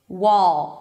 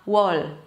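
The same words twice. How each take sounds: First: The final L is dark, made in the back. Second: The final L is light, tongue tip lifted. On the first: The speaker calls it right. "It's about that oh weird sound" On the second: The speaker calls it wrong. "and not wall"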